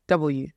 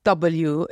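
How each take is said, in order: First: "W" as the supposedly proper way; lower, deliberate "W", correcting someone's pronunciation. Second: "W" held up as the wrong way; slow, deliberate "W" as the mistaken version; the corrected W. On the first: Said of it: "It's not W, it's W". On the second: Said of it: "then they're like, it's not W". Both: Retold or imitated.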